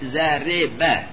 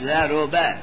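First: The r sound is followed by i. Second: The r sound is followed by u. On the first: "به کسر را" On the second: "به زمش"

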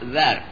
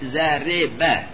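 First: The r sound carries no vowel. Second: The r sound is followed by i. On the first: "به سکون را" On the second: "به کسر را"

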